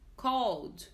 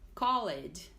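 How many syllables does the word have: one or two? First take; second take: one; two. First: The ending is silent, giving one syllable. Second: The ending is said as an extra syllable. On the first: The speaker calls it right. "o certo é called ... A letra E é muda" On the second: The speaker calls it wrong. "Muitos alunos falam called"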